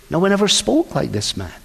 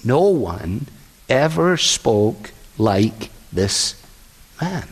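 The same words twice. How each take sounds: First: Said in the usual way. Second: Low, slow, hushed in awe; awed hush. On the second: Retold or imitated. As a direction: let each word hang, overwhelmed. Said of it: "And they say".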